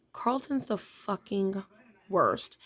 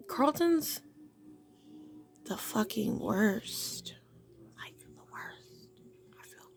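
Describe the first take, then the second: First: Said in the usual way. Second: Hushed conspiratorial whisper. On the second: Real, not acted. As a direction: whisper it like a secret. Whispered aside about Carlton.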